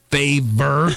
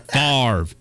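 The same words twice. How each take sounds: First: "Favor" said as fay-ver, like the word favor; mispronounced name. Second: "Favre" said as farv; correct pronunciation. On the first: Tony gets the quarterback's name wrong, saying "Favor" as fay-ver. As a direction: read "Favor" as two syllables, fay-ver. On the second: The customer corrects Tony, saying "Favre" as farv. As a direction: say "Favre" as one syllable, farv. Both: Acted. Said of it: "It's pronounced Favre".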